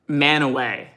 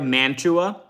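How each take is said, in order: First: The middle has no t sound. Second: The middle has a clear t sound. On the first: This is how the name is actually pronounced. The speaker calls it right. "Manaway is the correct" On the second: It is said this way so listeners recognize the name. The speaker calls it wrong. "I'm gonna pronounce this wrong"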